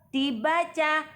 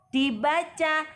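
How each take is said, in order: No difference in how they are said.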